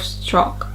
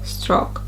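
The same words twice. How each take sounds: No difference in how they are said.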